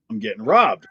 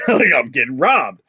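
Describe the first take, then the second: First: Said in the usual way. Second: Said through a laugh. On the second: Retold or imitated. Clerk retelling the robbery to his friend, laughing. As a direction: chuckle as you admit it.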